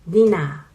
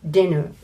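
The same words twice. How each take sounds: First: It is pronounced as a Japanese katakana word. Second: It is pronounced the English way. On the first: "We say dinner" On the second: "most Japanese cannot recognize the sound dinner"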